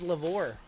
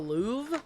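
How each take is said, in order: First: The word is said with an R sound. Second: The word is said without an R sound. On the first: The speaker calls it wrong. "I always thought it was Lavore" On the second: The speaker calls it right. "The the R is silent"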